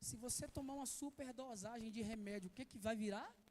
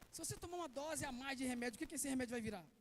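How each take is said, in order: First: It is said more slowly. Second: It is said at normal speed.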